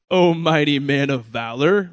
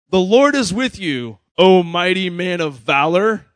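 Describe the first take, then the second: First: Mildly sarcastic. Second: Grand angel greeting. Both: Retold or imitated. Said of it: "It almost sounds kinda sarcastic".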